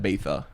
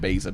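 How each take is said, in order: First: The z is said with a lisp, like th. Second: The z is said as a plain s sound. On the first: This is how everyone says it now. "everyone calls it Ibiza ... because this Spanish individual had a lisp" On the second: This is how it would be said without the lisp. "rather than Ibiza"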